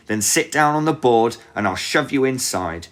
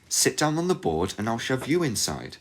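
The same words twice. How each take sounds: First: High, loud crafty witch voice; scheming witch. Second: Put-on higher girl's voice, calm; young girl voice. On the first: Acted. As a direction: coax her onto the board. Witch says it, Gretel echoes. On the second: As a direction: turn the witch's words back on her. Gretel echoes the witch.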